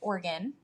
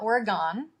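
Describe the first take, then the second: First: Oregon is pronounced the way locals say it. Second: Oregon is pronounced the way outsiders say it. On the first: The speaker calls it right. "I'm actually from Oregon" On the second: The speaker calls it wrong. "not Oregon"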